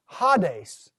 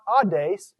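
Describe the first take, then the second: First: The word starts with an h sound. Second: The word starts with a vowel, no h. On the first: The speaker calls it right. "that's actually a rough breather" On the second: The speaker calls it wrong. "So it's not audace"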